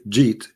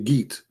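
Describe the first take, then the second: First: It begins with a soft j sound. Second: It begins with an Egyptian hard g sound.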